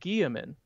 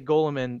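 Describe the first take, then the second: First: The double L is said as a Y sound. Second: The double L is said as an L sound. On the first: It follows the name's French and Latin roots. "the double L sound in in Guillermin's name is ye ... I always pronounce it Guillermin" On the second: It makes clear to others who is meant. "I say Golemin so people know who I'm talking about"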